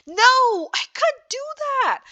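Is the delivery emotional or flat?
emotional. It is said with feeling and emotion. The speaker calls it right. "how you should say"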